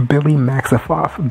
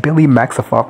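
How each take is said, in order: First: Slow, falling "Billy Maximoff" as a proud introduction; grand announcement. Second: Said in the usual way. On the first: Real, not acted. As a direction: draw out "Billy Maximoff" like a runway call. Announcing a character's entrance.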